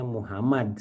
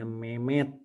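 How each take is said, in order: First: The name is said in full with three syllables. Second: The name is shortened to two syllables. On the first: This is the name's standard form. "namanya Muhammad sebetulnya" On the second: This is how a Sundanese speaker says it. "tapi jadinya Mehmet"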